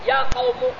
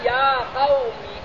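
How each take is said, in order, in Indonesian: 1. Kata terakhir diakhiri vokal u. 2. Kata terakhir diakhiri vokal i. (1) "Wajah yang ketiga dibina atas dom" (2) "dengan kasrah mim"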